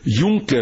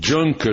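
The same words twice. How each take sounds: First: The name is said the German way. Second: The name is said the English way. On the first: The speaker calls it right. "o avião" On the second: The speaker calls it wrong. "é chamado de"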